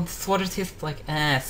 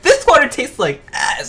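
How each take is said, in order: First: It is said at a calm, ordinary volume. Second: It is yelled out very loudly. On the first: "she didn't say" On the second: "and just like yelled it"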